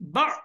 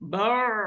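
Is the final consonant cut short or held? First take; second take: cut short; held. First: The final consonant is dropped or cut short. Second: The final consonant is held for longer. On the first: The speaker calls it wrong. "এভাবে বলা যাবে না" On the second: The speaker calls it right. "মানে কি ধরে রাখতে হবে ভিতরে"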